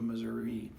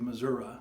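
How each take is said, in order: First: It uses the standard pronunciation. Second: It uses the Bootheel regional pronunciation. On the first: "instead of" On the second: "a common thing from people from the Boot Hill"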